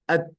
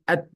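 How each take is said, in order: First: The final t is released with only a puff of air. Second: The final t is released with only a puff of air.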